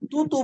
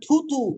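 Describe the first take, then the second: First: The first consonant is said plainly, without force. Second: The first consonant is said with a strong push. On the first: The speaker calls it wrong. "তুতু বলা যাবে না" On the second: The speaker calls it right. "মানে একটু ধাক্কা দিয়ে বলতে হবে"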